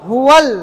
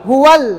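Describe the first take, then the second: No difference in how they are said.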